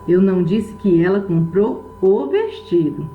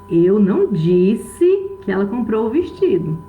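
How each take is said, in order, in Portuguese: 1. A tônica cai na palavra vestido. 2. A tônica cai na palavra disse. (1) "Ela pode ter comprado qualquer outra coisa, menos o vestido" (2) "Eu posso ter pensado, posso ter escrito, mas eu não falei"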